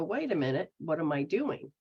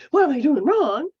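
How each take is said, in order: First: Soft, hushed wondering to yourself; quiet self-check. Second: Louder, higher, worried blurt; anxious self-blame. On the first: Person honestly examining their own behaviour, soft and hushed. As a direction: pull back and quietly question yourself. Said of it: "step up to the plate and go". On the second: The wrong way to question yourself, loud fretful blurt. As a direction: fret out loud as if you're failing. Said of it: "It's not that". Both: Retold or imitated.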